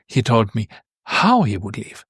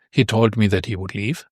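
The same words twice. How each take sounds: First: "how" punched as the point of the sentence; stress on HOW. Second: Said in the usual way. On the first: Shown as a demonstration. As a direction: make "how" the peak of the sentence. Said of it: "this how is emphasized".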